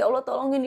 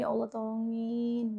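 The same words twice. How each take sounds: First: It is said quickly and in a rush. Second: It is said slowly and with feeling. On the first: The prayer is rushed without feeling. The speaker calls it wrong. "jangan kayak gitu teman-teman" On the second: The prayer is felt deeply. The speaker calls it right. "Doanya tuh jangan buru-buru diresapin"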